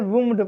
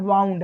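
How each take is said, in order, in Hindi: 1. स्वर 'oo' जैसा है। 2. स्वर 'ow' जैसा है। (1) "कुछ लोग इसे वुंड पढ़ देते हैं, लेकिन वुंड नहीं है" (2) "ये क्या है? वाउंड है।"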